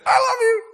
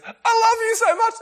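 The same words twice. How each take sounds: First: Very high, loud, syrupy love voice; sappy gushing Aaron. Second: High, loud, sugary declaration of love; sappy gushing Aaron. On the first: Hammed-up friend declaring his love to you. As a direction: swoon it out over the top. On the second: Mock gushing friend telling you he loves you. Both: Retold or imitated. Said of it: "right, in that voice".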